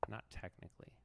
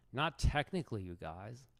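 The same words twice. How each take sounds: First: Said in the usual way. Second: Lightly voiced indignant streamer; hint of a riled-up rival; Hikaru impression. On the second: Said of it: "I believe I'm supposed to be Hikaru".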